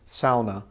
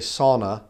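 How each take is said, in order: First: The first syllable sounds like 'sau' in sauerkraut. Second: The first syllable does not sound like 'sau'. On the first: The speaker calls it right. "It's sauna. Sort of like sauerkraut, S-A-U, sau" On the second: The speaker calls it wrong. "a lot of people say sauna, but sauna is not actually the right way to say it"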